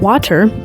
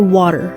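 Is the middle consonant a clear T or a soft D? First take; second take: clear T; soft D. First: The middle consonant is a clear T sound. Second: The middle consonant is softened almost to D. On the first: "instead of saying water" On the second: "soften the T sound to a D sound"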